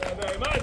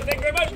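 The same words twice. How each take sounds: First: Deep, quieter thank-you to the crowd; low-voiced thanks. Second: Said in the usual way. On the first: Sword swallower thanking the crowd, low-voiced.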